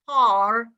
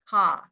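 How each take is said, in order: First: It is said in an Irish accent. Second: It is said in an upper-class British accent. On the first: "But if you go to Ireland, you will say car" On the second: "if you speak representative, like, you know, Queen Elizabeth, then you will say car"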